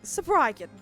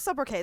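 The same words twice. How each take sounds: First: The word is said in a smug, affected manner. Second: The word is said in a plain, ordinary manner. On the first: "He would say Sobriquet like an asshole" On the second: "we'll go with sobriquet. That sounds perfectly French"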